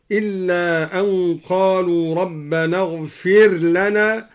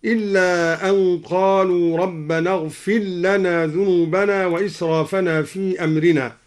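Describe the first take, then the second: First: اغفر لنا with the r sounded, "ighfir lana"; clear unmerged r. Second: اغفر لنا run together as "ighfil-lana"; r merged into l. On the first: Teacher shows first option, izhar in اغفر لنا, r clear. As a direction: keep r and l separate in اغفر لنا, slowly. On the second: Teacher shows second option, idgham in اغفر لنا, "ighfil-lana". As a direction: drop the r of اغفر into a doubled l of لنا. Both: Shown as a demonstration. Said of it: "قرأ الدوري بإدغام الراء وإظهارها".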